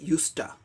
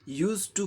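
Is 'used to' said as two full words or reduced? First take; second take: reduced; full. First: The words are run together into one. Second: Both words are said fully and separately. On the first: This is the informal way to say it. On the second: This is the formal way to say it.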